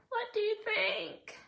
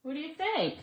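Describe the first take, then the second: First: Much higher and slower, teasing; lilting put-on voice asking the viewers; playful high voice. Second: Said in the usual way. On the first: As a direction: sing the question up high at the viewers. Repeats question in playful voice.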